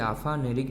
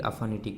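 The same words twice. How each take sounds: First: "aphanic" ending like phaneric, with an r: aphanerik; mistaken aphaneric. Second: "aphanic" ending in -itik, with a t: aphanitik; correct term aphanitic. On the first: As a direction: say "aphanic" wrongly as a-fa-ne-rik. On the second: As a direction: say "aphanic" as a-fa-ni-tik. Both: Shown as a demonstration. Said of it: "aphanic नहीं बोलिएगा".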